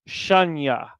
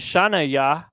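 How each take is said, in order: First: The syllables are run together into one word. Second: The syllables are said as separate pieces. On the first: The speaker calls it right. "I'm saying shanya" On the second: The speaker calls it wrong. "I'm not saying shana ya"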